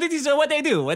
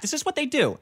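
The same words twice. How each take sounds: First: It is spoken in a put-on Italian accent. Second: It is spoken in the speaker's normal accent.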